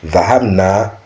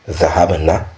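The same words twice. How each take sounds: First: The final vowel is held long. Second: The final vowel is cut short. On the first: We went. "c'est juste l'allongement du na là" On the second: They (women) went. "le na est bref"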